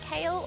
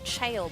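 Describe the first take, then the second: First: The name begins with a hard K sound. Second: The name begins with a CH sound. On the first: "the English pronunciation" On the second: "C is pronounced as Ch"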